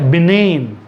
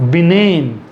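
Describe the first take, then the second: First: The g is silent in the word. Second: The same.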